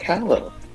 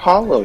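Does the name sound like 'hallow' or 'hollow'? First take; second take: hallow; hollow. First: The name sounds like the word 'hallow'. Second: The name sounds like the word 'hollow'. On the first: "I say Hallow because it sounds a bit more proper" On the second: "depending on how you pronounce it"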